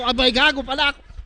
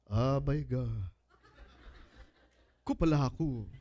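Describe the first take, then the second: First: The phrase is said quickly as one run. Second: The phrase is said slowly, broken into pieces. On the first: "you say it faster" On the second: "while you're clapping slowly, you have to say"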